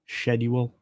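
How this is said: It is pronounced the British way. "Did I say that right, my my my British friends? Schedule rather than"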